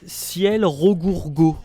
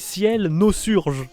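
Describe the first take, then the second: First: The second word is pronounced 'Rogourgo'. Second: The second word is pronounced 'Nosurge'. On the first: The speaker calls it wrong. "je lis Ciel Rogourgo" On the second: The speaker calls it right. "c'est Ciel Nosurge"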